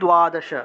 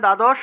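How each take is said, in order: First: It is said with Sanskrit pronunciation. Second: It is said with Bengali pronunciation. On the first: "সংস্কৃত হবে দ্বাদশ" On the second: "বাংলায় বললে দ্বাদশ"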